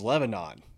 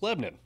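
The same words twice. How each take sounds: First: It is said the way non-natives read it. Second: It is said the way Nashville natives say it.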